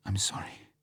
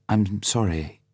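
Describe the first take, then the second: First: Tearful whispered apology; muffled whisper. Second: Said in the usual way. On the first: A narrator's reading. Vesper apologising to Bond through tears, whispered. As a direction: breathe it out, almost crying. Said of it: "she said in a muffled voice". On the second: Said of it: "she said".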